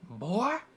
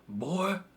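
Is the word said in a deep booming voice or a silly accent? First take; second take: silly accent; silly accent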